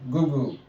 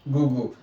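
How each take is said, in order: Both takes have the same delivery.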